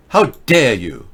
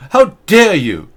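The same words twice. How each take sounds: First: Said in the usual way. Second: Higher, louder hammed-up scolding; mock Greta outrage. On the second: Host mocks Greta scolding a chat user, loud and high. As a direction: bark it in mock indignation.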